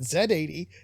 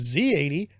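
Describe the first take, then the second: First: The letter Z is said as 'zed'. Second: The letter Z is said as 'zee'. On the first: This is the way other countries say it. "countries that pronounce it Z eighty" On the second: This is the American way of saying it. "instead of Z eighty"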